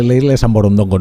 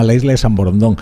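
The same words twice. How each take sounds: First: Borondongo, with an extra -go after the stressed -don-; mistaken name Borondongo. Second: Borondón, ending on stressed -dón; corrected name Borondón. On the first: Host mocking his own slip to listeners, Borondongo with added -go. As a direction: say Borondongo, wrongly ending in -ongo. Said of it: "antes dije la isla de San Borondongo porque fui de listillo". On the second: Host correcting his slip for listeners, Borondón ending on -dón. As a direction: say Borondón with no -go at the end. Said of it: "No, se llama la isla de San Borondón". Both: Shown as a demonstration.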